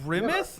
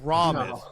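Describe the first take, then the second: First: It is said like the start of grimacing. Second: It is not said like the start of grimacing. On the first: "like I'm grimacing" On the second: "or is it pronounced"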